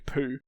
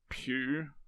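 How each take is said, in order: First: The name rhymes with 'too', without a y-glide. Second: The name rhymes with 'few', with a y-glide. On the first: This is a jokey pronunciation chosen anyway. "I'm going to say poo" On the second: This is probably the correct pronunciation. "it's probably pronounced Pew"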